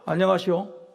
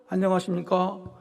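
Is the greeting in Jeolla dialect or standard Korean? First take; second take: Jeolla dialect; standard Korean. First: It is said in a Jeolla dialect accent. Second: It is said in a standard Seoul accent. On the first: The speaker's heart reaches the listeners. The speaker calls it right. "전라도 사투리를 팍 써버렸습니다" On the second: The message does not reach the listeners. The speaker calls it wrong. "너 전라도 사투리 쓰지 마라. 그래서"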